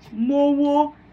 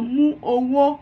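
First: The words merge into one, one vowel dropped. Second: Both words are said separately, each vowel kept. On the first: "Omitimos uma fonema que fica mowo" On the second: "aí fala mu, owo"

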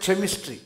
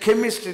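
First: The word begins with a ch sound. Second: The word begins with a hard k sound. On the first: The speaker calls it wrong. "we don't say chemistry" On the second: The speaker calls it right. "we say chemistry"

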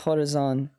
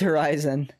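First: The word has a French-style pronunciation. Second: The word has an English pronunciation. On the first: The speaker calls it wrong. "It's not like croissant. It's not like Horizon" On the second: The speaker calls it right. "It's Horizon"

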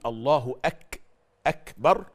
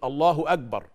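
First: The k is voiceless with audible breath. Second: The k is voiced, close to a g. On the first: The speaker calls it right. "بدل ما يقول الله أكبر" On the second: The speaker calls it wrong. "يقول الله أكبر"

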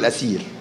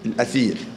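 First: The middle consonant is an 's' sound. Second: The middle consonant is a 'th' sound. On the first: The speaker calls it wrong. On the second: The speaker calls it right.

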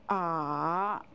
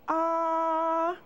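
First: The pitch dips low and then rises. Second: The pitch stays high and level. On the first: "The third tone goes down and up" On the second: "The first tone has a straight line across"

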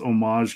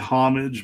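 First: It is pronounced the French way. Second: It is pronounced the English way. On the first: The speaker calls it right. "I think it's homage because it's from the French" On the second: The speaker calls it wrong. "I've heard people say homage"

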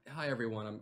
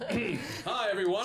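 First: The greeting is spoken softly and timidly. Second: The greeting is spoken loudly and projected. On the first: The speaker is embarrassed and reluctant to talk. The speaker calls it wrong. "Speak up, Franklin" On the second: The speaker is following orders to project confidently. The speaker calls it right. "More chest!"

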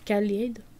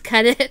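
First: It is said with an English accent. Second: It is said with a French accent. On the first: "moi et mon anglais" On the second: "Je vais le faire à la française"

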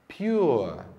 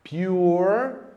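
First: The R sound is soft and barely heard. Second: The R sound is clearly and strongly pronounced. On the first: "no inglês britânico o R aparece bem lá no fundinho" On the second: "inglês norte-americano a pronúncia dele fica bem mais presente"

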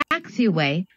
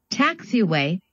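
Both takes have the same delivery.

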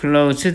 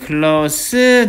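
First: The word ends with a z sound. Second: The word ends with an s sound. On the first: It is a verb meaning to shut. "발음이 z 발음 되니까" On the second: It is an adjective meaning near or intimate. "발음이 s 발음 되니까 가까운"

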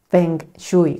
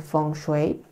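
First: It is said as the letters read in Spanish. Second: It is said closer to the Chinese sounds. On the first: The speaker calls it wrong. "no es Feng Shui como tal, así no se dice" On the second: The speaker calls it right. "se dice Feng Shui. La pronunciación es un poco diferente"

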